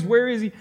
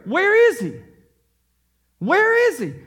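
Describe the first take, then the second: First: Said in the usual way. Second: High searching cry of where is he; magi asking. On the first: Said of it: "the construction of this phrase". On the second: Retold or imitated. Magi to Jerusalem, a high loud searching call. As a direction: call out like travellers searching the city. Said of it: "their message is clear".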